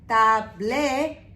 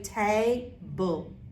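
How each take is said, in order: First: The ending is sounded like the spelled letters. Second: The ending is sounded as a short 'bul'. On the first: The speaker calls it wrong. "instead of saying" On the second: The speaker calls it right. "You're going to say table"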